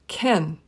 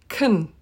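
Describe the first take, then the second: First: The vowel is reduced to a short e. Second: The vowel is reduced to a short uh. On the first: "usually pronounced in a sentence as ken" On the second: "or even kun"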